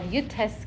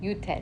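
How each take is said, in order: First: It is said in Ashkenazi Hebrew, ending in s. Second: It is said in Modern Hebrew, ending in t. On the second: "In um, Hebrew"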